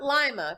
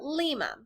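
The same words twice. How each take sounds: First: It is pronounced like the lima bean. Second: It is pronounced unlike the lima bean. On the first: The speaker calls it wrong. "Not Lima, because it looks like lima beans" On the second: The speaker calls it right. "but Lima"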